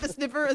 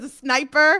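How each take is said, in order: First: The first vowel is short, like 'snip'. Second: The first vowel is long, like 'snipe'.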